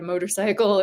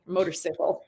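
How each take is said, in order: First: Said in the usual way. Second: Motorcycle said moto-SICK-el; motor-sickle pronunciation. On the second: Retold or imitated. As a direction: imitate him saying motorcycle as motor-sickle. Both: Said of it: "he would have said".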